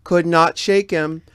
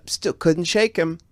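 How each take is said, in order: First: "not" pulled apart and louder; slow and firm on "Could not"; stress on not. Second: Said in the usual way. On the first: Real, not acted. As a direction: lean on "not".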